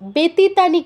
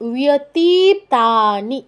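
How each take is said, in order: First: The word begins with a b sound. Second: The word begins with a w sound. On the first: The speaker calls it wrong. "ব্যতীতানি কেউ বলবে না" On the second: The speaker calls it right. "উয় উয়"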